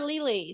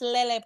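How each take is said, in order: First: The name sounds like the word lily. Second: The name sounds like le-le. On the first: The speaker calls it wrong. "I just called her [name]" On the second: The speaker calls it right. "so it's Lele Pons"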